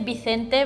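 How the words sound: It is said with a Spain Spanish accent. "Because I say Vicente"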